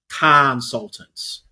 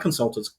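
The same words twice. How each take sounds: First: The first syllable 'con' is stressed. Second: The first syllable 'con' is unstressed. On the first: Consultants are con artists. "A little change of the sound makes it all makes all the difference" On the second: It is the ordinary word for advisers. "not consultants"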